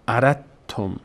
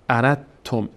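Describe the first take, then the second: First: A d sound is heard before the t. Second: A d sound is heard before the t.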